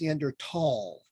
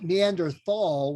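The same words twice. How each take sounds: First: The last syllable starts with a plain t. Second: The last syllable starts with a th sound. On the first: The speaker calls it right. "even though there is an H in there, but you don't say it" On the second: The speaker calls it wrong. "it's not Neanderthal, which we learned in school"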